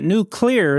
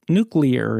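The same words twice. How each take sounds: First: NUCLEAR split as nu-CLEAR; wrong pronunciation. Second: NUCLEAR as NOO-klee-er, stress first; correct pronunciation. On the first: Rejecting the host's version, wrong pronunciation. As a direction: stress clear as a separate word in nuclear. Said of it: "is also wrong". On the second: Teaching the host the word, correct pronunciation. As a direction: say nuclear joined up, clear unstressed. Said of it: "is correct". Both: Shown as a demonstration.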